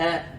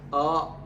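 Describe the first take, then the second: First: The vowel sounds light and open. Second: The vowel sounds heavy and hollow. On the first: The speaker calls it right. "إنما هي آ آ آ" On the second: The speaker calls it wrong. "لا ينبغي أن يقول آه بهذه الطريقة"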